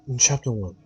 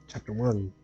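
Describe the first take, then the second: First: It is said in a put-on narrator voice. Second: It is said in the speaker's normal voice.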